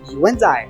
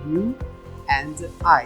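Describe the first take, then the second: First: The words run together without any gaps. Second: The words are said separately with gaps. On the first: The speaker calls it right. "Se fala tudo junto" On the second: The speaker calls it wrong. "Não se fala espaçadamente"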